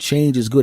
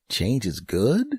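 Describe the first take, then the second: First: The voice falls at the end like a statement. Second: The voice rises at the end like a question. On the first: It is a confident claim. "it isn't change is good" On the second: The speaker is unsure whether it is true. "there's a question mark at the end of that sentence"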